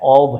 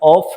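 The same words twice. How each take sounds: First: The word ends with a v sound. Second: The word ends with an f sound. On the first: The speaker calls it right. "ऑफ है" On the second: The speaker calls it wrong. "इसका भी सही उच्चारण ऑफ नहीं है"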